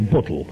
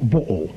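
First: The t and l sounds are clearly pronounced. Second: The t sound is dropped, the l nearly gone.

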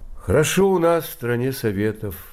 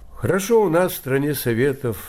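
First: It is said in a sad, mournful tone. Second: It is said in a cheerful, upbeat tone.

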